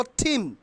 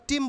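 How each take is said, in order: First: "থিম" with puffed aspirated t; corrected pronunciation. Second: "টিম" with hard unaspirated t; mistaken pronunciation. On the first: Teacher telling what we will say, corrected pronunciation. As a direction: say "থিম" as "thim". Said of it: "আমরা বলবো থিম". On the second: Teacher telling what we won't say, mistaken pronunciation. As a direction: say "টিম" with no breath after t. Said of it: "আমরা টিম বলবো না". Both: Shown as a demonstration.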